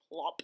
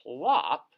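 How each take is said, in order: First: Said in the usual way. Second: "Plop?" repeated louder as a baffled question; a louder, puzzled "Plop?" with a falling finish; puzzled echo. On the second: Acted. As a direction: echo "Plop?" like you can't believe it. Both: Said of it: "What just happened at the end".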